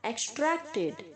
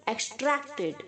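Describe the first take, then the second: The two takes are said the same way.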